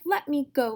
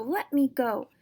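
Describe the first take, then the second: First: High, loud "Let me go!" yell. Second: Loud, higher "Let me go!" repeated; yelling again. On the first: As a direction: struggle and yell to be freed. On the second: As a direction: keep yelling "Let me go!" as you fight. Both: Acted. Sister thrashes in his grip.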